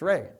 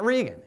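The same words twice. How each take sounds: First: Reagan said as RAY-gun, with an ay sound; right pronunciation. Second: Regan said as REE-gun, with a long ee; wrong pronunciation. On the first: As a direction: Reagan with the first vowel as in "day". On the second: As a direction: Regan with the first vowel as in "see". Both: Retold or imitated. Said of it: "It's not Regan, it's Reagan".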